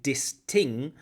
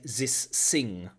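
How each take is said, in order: First: The th sounds are said as d and t. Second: The th sounds are said as z and s. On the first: "That often it comes out as d and t" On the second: "it often comes out as z and s"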